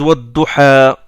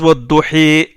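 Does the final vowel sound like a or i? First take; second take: a; i. First: The final vowel is an open a sound. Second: The final vowel is tilted toward an i sound.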